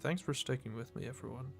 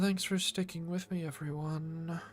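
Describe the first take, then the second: First: It is said in a plain voice. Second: It is said in a seductive voice.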